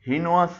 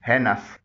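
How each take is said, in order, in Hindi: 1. पहला स्वर 'ee' जैसा बोला जाता है। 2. पहला स्वर 'ay' जैसा बोला जाता है। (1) "इसे भी गलत तौर पर लोग हीनोस बोलते हैं।" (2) "इसका सही प्रोनाउंसिएशन है"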